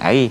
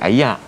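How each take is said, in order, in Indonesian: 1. Kata itu diakhiri bunyi 'ir'. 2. Kata itu diakhiri bunyi 'ak'. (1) "K L ataupun Kuala Lumpur ni mungkin panggil air" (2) "Kedah mungkin panggil ayak"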